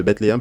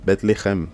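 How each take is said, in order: First: Said in the usual way. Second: Bethléem said as "bet LE-khem", throaty kh; Hebrew pronunciation. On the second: Shown as a demonstration. Teacher giving learners the Hebrew name, Hebrew pronunciation of Bethléem. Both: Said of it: "en hébreu, ça se dit".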